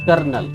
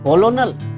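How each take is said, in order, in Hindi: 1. इसे दो अक्षरों में बोला जाता है, kernel की तरह। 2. इसे तीन अक्षरों में बोला जाता है, col-o-nel। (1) "The correct pronunciation is kernel" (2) "Exactly wrong"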